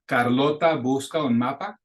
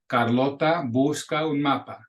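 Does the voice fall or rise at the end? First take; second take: rise; fall. First: The pitch rises at the end. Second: The pitch stays level or falls at the end. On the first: It is a question. "You can hear the little cracking in my voice as that pitch raises up at the end" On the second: It is a statement. "That's just a declaration, just a sentence"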